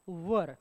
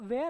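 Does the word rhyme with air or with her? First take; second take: her; air. First: The vowel sounds like the one in her. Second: The vowel sounds like the one in air. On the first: The speaker calls it right. "त्याचा उच्चार कसा आहे" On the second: The speaker calls it wrong. "असा शिकवला गेलाय, but that is an incorrect pronunciation"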